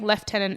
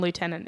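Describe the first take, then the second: First: It is said with a British pronunciation. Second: It is said with an American pronunciation.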